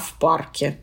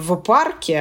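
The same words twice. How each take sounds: First: The preposition is devoiced, like 'f'. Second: The preposition is voiced, like 'v'. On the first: The speaker calls it right. "а в парке" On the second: The speaker calls it wrong. "мы говорим не в парке"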